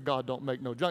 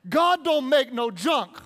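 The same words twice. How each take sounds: First: It is said flatly, with little energy. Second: It is said with strong, emphatic energy. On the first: The speaker calls it wrong. "You just can't say" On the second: The speaker calls it right. "You have to say it like that"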